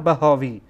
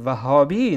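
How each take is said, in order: First: The word begins with a b sound. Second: The word begins with a v sound. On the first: The speaker calls it wrong. "نه بهاوی" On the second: The speaker calls it right. "درست تلفظ بکن، وهابی"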